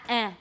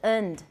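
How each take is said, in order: First: The word is cut to a bare vowel. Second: The word is said in its reduced form. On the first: "don't use eh" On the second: "the weak form is"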